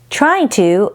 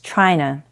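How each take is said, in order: First: Both words are said fully and separately. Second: The words blend into one reduced form.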